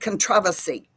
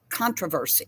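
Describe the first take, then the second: First: It is said with a British pronunciation. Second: It is said with an American pronunciation. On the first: "that caused a big controversy" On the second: "is what we say"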